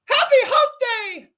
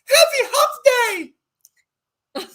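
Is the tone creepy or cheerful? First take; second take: cheerful; creepy. First: It is said in a cheerful tone. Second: It is said in a creepy tone.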